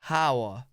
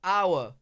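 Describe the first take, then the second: First: The word starts with an audible H sound. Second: The word starts with a vowel sound, no H. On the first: "how do you even say it with H?" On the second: "drop the H"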